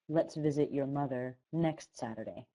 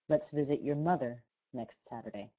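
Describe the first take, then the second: First: The main stress falls on the word next. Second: The main stress falls on the word mother. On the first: It means this Saturday, not next Saturday. "I emphasize next" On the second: It means your mother, not your father. "or mother"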